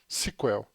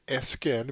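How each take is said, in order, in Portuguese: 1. Pronuncia-se como uma palavra, tipo "sequel". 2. É soletrada letra por letra. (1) "a sigla em inglês ser comumente pronunciada S Q L" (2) "aqui no Brasil a gente costuma usar o nome S Q L mesmo"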